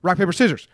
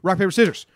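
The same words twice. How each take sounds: The two takes are said the same way.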